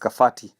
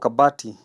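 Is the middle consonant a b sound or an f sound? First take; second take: f sound; b sound. First: The middle consonant is an f sound. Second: The middle consonant is a b sound. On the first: "they'll read it as Kafati" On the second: "letter B is pronounced as letter F"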